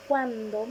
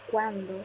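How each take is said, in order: First: Cuándo with a stressed, held first syllable; accented cuándo. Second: Said in the usual way. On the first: Shown as a demonstration. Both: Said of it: "tilde para distinguirlas".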